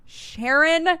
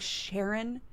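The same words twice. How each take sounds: First: High, louder, fed-up call of Sharon; exasperated Sharon. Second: Quiet, puzzled rising call of Sharon; questioning Sharon. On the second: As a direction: murmur Sharon as a doubtful question. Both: Retold or imitated. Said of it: "I'm like".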